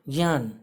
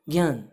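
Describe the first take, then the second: The two takes are said the same way.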